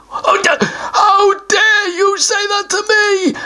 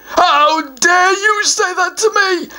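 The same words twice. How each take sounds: First: High, slow shout with a fake sob; a troll throwing a tantrum; outraged troll. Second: Higher troll voice, mildly affronted; a troll pretending to be insulted; offended troll. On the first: Troll furious at the answer pea, shouting. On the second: Troll mildly affronted by the answer Pooh.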